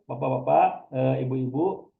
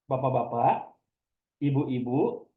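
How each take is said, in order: First: A filler sound eh separates the two phrases. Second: A silent pause separates the two phrases. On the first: The speaker calls it wrong. "Daripada kita mengucapkan ke bapak-bapak, eh" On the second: The speaker calls it right. "lebih baik kita jeda saja"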